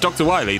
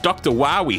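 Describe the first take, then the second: First: The name is said with a long 'i', like Wily. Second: The name is said with an 'ow' sound, like Wowie. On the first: It is the usual name of the character. The speaker calls it right. "it's Doctor Wily" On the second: It copies a voice-acting error from a game. The speaker calls it wrong. "I was doing the Mega Man eight pronunciation of Doctor Wily"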